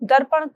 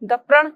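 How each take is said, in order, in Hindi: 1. "r" ध्वनि "p" से पहले आती है। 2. "r" ध्वनि "p" के बाद आती है। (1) "दर्पण को" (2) "द प्रण दप्रण कहना"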